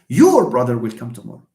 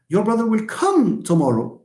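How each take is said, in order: First: The stress falls on the word your. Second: The stress falls on the word come. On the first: It is that person's brother, not someone else's. "if I stress your brother, your, just the word your" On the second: He will come rather than stay at home. "When you when you stress the word come"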